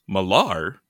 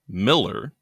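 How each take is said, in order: First: The name ends with an 'ar' sound. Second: The name ends with an 'er' sound. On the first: The speaker calls it wrong. "what we thought was" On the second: The speaker calls it right. "is actually"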